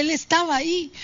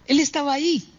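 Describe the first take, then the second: First: "estaba" lifted much higher, rest light; marvelling emphasis on "estaba"; stress on estaba. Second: "Él" pushed up high and hit hardest; emphasis on "Él", raised pitch; stress on él. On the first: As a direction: stretch and raise "estaba", he was right there. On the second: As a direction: lean on "Él", he himself was there. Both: Shown as a demonstration. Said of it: "Ese detalle es increíble".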